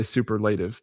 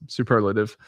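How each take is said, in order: First: "superlative" said as super-LAY-tiv; "superlative" with a long A in the third syllable; mispronounced superlative. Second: "superlative" said as soo-PER-luh-tiv; "superlative" with a short, weak third syllable; correct superlative. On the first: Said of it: "I wanna say superlative". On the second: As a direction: stress the second syllable of "superlative". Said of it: "but it's superlative". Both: Shown as a demonstration.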